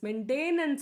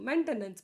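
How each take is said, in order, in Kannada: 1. ಎರಡನೇ ಅಕ್ಷರದಲ್ಲಿ 'tain' ಎಂಬ ಎಳೆದ ದೀರ್ಘ ಸ್ವರ ಇದೆ. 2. ಎರಡನೇ ಅಕ್ಷರದಲ್ಲಿ 'ten' ಎಂಬ ಹ್ರಸ್ವ ಸ್ವರ ಇದೆ. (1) "ಮೇಂಟೇನೆನ್ಸ್ ಅಲ್ಲ ಅದು" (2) "ಅದು ಮೇಂಟೆನೆನ್ಸ್"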